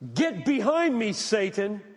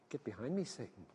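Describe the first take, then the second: First: The phrase is said loudly and harshly. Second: The phrase is said softly and gently. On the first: The rebuke is blunt and confrontational. "I don't know if he used that tone of voice" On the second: The rebuke is gentler and less confrontational. "he could have said that softer"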